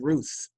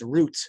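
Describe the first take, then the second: First: The name ends with a th sound. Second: The name ends with a t sound.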